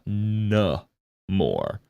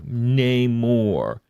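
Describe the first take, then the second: First: The first syllable has a reduced, barely-there vowel. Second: The first syllable sounds like 'nay'. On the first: "not N-more" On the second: "I've always called it na- like N A Y M O R E"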